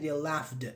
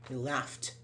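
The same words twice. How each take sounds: First: The ending is not a plain t sound. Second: The ending is a plain t sound. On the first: The speaker calls it wrong. "Don't say they laughed" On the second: The speaker calls it right. "No, they laughed"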